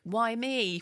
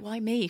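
First: It is said in an angry tone. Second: It is said in a calm, reflective tone.

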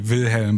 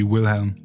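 First: The name is said with a German accent. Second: The name is said with an English accent.

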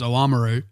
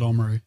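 First: The word is said with its full opening. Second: The word is said with its opening dropped. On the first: "I do believe the correct pronunciation is Oamaru" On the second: "whereas a local will call it Oamaru"

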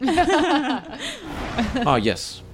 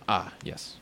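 First: It is said in a put-on character voice. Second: It is said in the speaker's natural voice.

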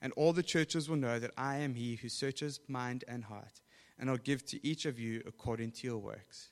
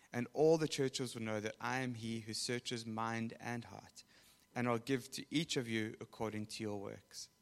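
Both takes have the same delivery.

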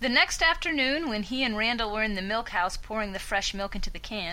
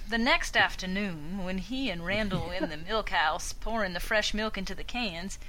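First: It is read plainly, without a Southern accent. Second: It is read slowly with a Southern drawl.

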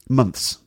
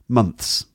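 The two takes are said the same way.

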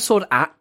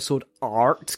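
First: The R in 'Art' is soft and weakened. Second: The R in 'Art' is hard and strong. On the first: The speaker calls it right. "I'm a Sword Art kind of guy" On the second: The speaker calls it wrong. "I don't like the hard R sound"

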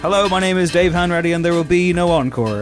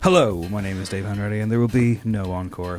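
First: It sounds overly sincere, like breaking news. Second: It sounds casual and relaxed, not newsreader-like.

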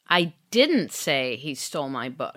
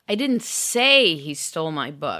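First: The stress is on "didn't". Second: The stress is on "say".

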